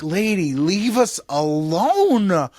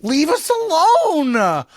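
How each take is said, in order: First: Slow, drawn-out tired plea; slow weary plea to a nagging politician. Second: Higher, louder, fed-up yell; mock outburst at the politician who won't stop; exasperated shout. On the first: Retold or imitated. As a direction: beg her to go away, worn out. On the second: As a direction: blow up at her, done with it. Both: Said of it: "And you're like".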